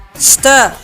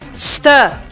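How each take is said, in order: No difference in how they are said.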